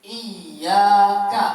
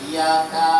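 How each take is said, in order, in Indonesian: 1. Bunyi y-nya dobel dan ditahan lebih lama. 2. Bunyi y-nya tunggal dan pendek. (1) "ada tasdid" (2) "Ada sebagian orang yang baca iya"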